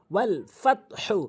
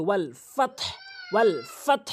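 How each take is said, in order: First: ফত হু with the final "hu" voiced; joined ending. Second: ফত closed on a breathy h, no final vowel; pausal ending. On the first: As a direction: sound the vowel at the end, ফত হু. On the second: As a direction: stop ফত on a bare "h", as "fat-h". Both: Shown as a demonstration. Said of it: "ওয়াকফ করলে".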